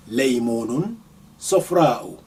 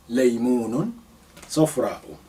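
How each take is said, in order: Both takes have the same delivery.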